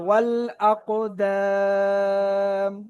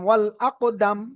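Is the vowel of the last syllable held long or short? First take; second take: long; short. First: The final vowel is stretched to three counts. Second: The final vowel is short, without lengthening. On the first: The speaker calls it right. "যেহেতু টান আছে এক আলিফ, তাহলে এটা তিন আলিফ হয়ে যাবে" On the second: The speaker calls it wrong. "যদি এখানে টান না থাকতো তাহলে আমি দাল মিম জবর দাম পড়তাম, এইভাবে পড়তাম"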